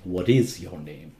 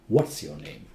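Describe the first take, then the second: First: What and is are said as two full words. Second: What and is are joined into one contracted word. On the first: The speaker calls it wrong. "People say" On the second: The speaker calls it right. "You have to say"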